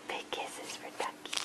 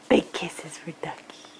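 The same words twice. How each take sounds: First: Soft breathy whisper. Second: Said in the usual way. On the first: Real, not acted. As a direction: whisper it tenderly. Whispered repeat.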